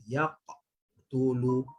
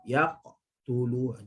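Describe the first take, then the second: First: Yaqtulu with a break after the qaf; choppy halted Yaqtulu; wrong broken recitation. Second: Yaqtulu in one flow, qaf bouncing straight into tu; smooth joined Yaqtulu; correct flowing recitation. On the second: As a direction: keep Yaqtulu running without a stop. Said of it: "Jangan berhenti". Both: Shown as a demonstration.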